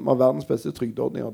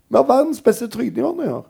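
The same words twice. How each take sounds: First: It is said in a concerned, worried tone. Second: It is said in a proud, celebratory tone. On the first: Having the best welfare schemes is a problem. "Det er et lite problem" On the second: Having the best welfare schemes is a good thing. "Det burde jo være det beste i verden"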